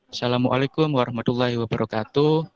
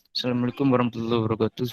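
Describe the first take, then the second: First: It is spoken clearly in a flat monotone. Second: It is mumbled quietly and unclearly.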